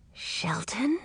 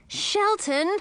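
First: Soft whispered call, rising; whispering so the shark won't hear. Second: Urgent cry to get his attention. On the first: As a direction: hiss the name without moving. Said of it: "whispered Edric". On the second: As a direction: snap the name urgently. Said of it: "I cried". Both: A narrator's reading.

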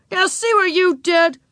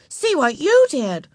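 First: Put-on high, indignant boy's voice; accusing. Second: High, slow retort with "you" punched; contradicting, stress on YOU. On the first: Wayne blames Ramona for the spilled paint, accusing. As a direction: blame the other child for the mess. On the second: Beezus blames Wayne instead, contradicting with stressed "you". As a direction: throw the blame back, leaning hard on "you". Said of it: "contradicted Beezus". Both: A narrator's reading.

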